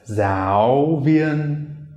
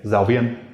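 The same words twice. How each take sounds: First: The words are said slowly, first syllable clearly rising. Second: The words are said quickly, first syllable staying low. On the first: "taught it really slowly" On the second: "when speaking quickly, you would say"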